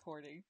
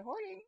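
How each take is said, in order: First: Said in the usual way. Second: Hoarding exclaimed much higher in pitch, half laughing; high playful echo of Hoarding; mock-indignant hoarding. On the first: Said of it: "I think Amanda said I was hoarding". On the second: Real, not acted. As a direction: toss Hoarding back in playful outrage. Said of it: "Amanda said I was hoarding".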